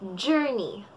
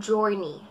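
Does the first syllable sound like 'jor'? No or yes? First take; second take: no; yes. First: The first syllable does not sound like 'jor'. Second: The first syllable sounds like 'jor'. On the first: The speaker calls it right. "Ang tamang pagkakabigkas ay journey" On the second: The speaker calls it wrong. "Madalas natin pagkakabigkas ay journey"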